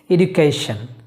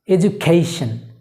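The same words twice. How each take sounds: First: The word is said in the casual, common way. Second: The word is said in four careful syllables. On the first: The speaker calls it wrong. "we pronounce it education" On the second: The speaker calls it right. "It's education"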